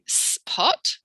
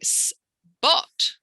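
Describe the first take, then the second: First: The p is said with a puff of air. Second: The p is said softly, like a b. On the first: "I'm not saying spot" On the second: "I'm saying spot with a B"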